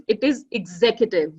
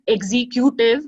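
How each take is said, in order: First: "executive" said the right way, as ig-ZEK-yuh-tiv; correct pronunciation. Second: "executive" said the wrong way, as ig-ZEEK-yoo-tiv, a bit louder; wrong pronunciation. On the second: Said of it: "it is not exe-, executive". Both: Shown as a demonstration.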